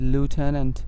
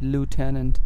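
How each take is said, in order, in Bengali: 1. এটি আমেরিকান উচ্চারণে বলা হয়, 'loo' দিয়ে শুরু। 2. এটি আমেরিকান উচ্চারণে বলা হয়, 'loo' দিয়ে শুরু।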